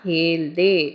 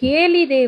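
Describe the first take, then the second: First: The middle vowel is dropped, giving two syllables. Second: The middle vowel is kept, giving three syllables. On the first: This is how people say it in casual speech. "நம்ம ஸ்போக்கன்ல எப்படி சொல்றோம்னா" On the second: This is the full form of the word. "இந்த ஹேலிதே"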